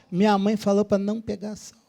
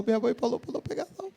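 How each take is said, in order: First: Said in the usual way. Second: Softer, quick mumbled mock-childish whine; whiny spoiled recruit. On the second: Spoiled recruit answering the sergeant, soft fast mock whine. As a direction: whine it like a pampered boy. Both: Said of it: "O garoto falou".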